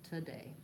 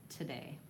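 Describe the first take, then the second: No difference in how they are said.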